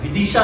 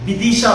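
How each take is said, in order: First: विदिशा with a clear V sound at the start; correct pronunciation. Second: विदिशा said as Bidisha, with a B sound instead of V; wrong pronunciation. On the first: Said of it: "विदिशा है actually". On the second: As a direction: deliberately mispronounce विदिशा with a B at the start. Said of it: "मैं उसको गलत प्रोनाउंसिएट कर रहा हूँ". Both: Shown as a demonstration.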